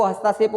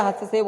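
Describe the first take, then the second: First: हस्ताक्षेप with a long "taa"; हस्ताक्षेप with the middle A lengthened; wrong long A. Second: हस्तक्षेप with a short "ta"; हस्तक्षेप with the middle A kept short; correct short A. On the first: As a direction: say हस्ताक्षेप as has-TAA-kshep. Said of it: "हस्ताक्षेप नहीं होता". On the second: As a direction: say हस्तक्षेप as has-ta-KSHEP. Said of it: "हस्तक्षेप होता है". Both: Shown as a demonstration.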